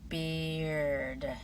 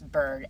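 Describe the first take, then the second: First: The vowel and R are said as separate sounds. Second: The vowel and R blend into one sound.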